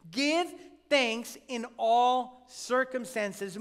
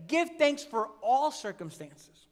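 First: Slow, with weight on "in all"; slow and deliberate, stressing "in all" and not "for"; stressed correct reading. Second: A slow, wrong "Give thanks for all circumstances" with weight on "Give"; slow misquote of "for all circumstances," stressing "Give"; mock misreading. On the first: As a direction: lean on "in all" in "Give thanks in all circumstances". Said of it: "really read this text correctly". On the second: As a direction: read it as the misquote the verse does not say. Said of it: "this verse doesn't say". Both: Shown as a demonstration.

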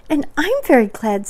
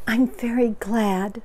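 First: High, loud little voice; happy Piglet. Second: Moderately raised, pleased voice; Pooh, happy. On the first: Acted. Piglet chimes in after Pooh, high and happy. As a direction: pipe up eagerly, stressing your own gladness. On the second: A narrator's reading. Pooh is pleased with his gift, happy. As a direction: say it contentedly, a bit pitched up. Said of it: "said Pooh happily".

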